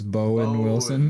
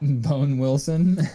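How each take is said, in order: First: The first word has two syllables. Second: The first word has one syllable.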